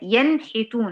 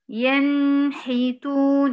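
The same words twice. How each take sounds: First: The n sound is short and direct. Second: The n sound is held too long. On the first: The speaker calls it right. "هي ينحتون على طول" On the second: The speaker calls it wrong. "ليه بتزودي كده؟"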